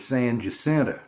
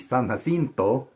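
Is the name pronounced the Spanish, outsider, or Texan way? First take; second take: Texan; Spanish. First: The name has a local Texan pronunciation. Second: The name has a Spanish pronunciation. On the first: This is how locals say it. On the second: This is how it is said in Spanish.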